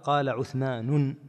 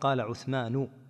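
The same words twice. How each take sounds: First: The name ends with an added n sound. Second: The name ends without an added n sound. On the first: The speaker calls it wrong. "ما يقال" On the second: The speaker calls it right. "وإنما يقال"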